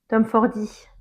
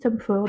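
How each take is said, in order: First: The name ends with an extra 'ee' sound. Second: The name ends sharply on 'Ford'. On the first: The speaker calls it right. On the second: The speaker calls it wrong.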